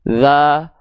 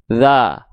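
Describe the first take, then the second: The two takes are said the same way.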